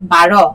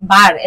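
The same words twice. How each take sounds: First: The final r sound is said with extra force. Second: The final r sound is said without extra force. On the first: It means the number twelve. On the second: It means a day of the week.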